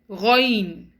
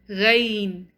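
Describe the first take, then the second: First: The letter is pronounced heavy, tongue back raised. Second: The letter is pronounced light, tongue back lowered. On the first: The speaker calls it right. "The correct pronunciation of these two alphabets is" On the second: The speaker calls it wrong. "It's not"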